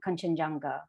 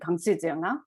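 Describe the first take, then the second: First: The name has its usual English pronunciation. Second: The name has its local Sikkimese pronunciation.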